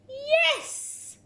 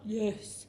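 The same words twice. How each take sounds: First: It is said with excitement. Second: It is said flatly, without excitement.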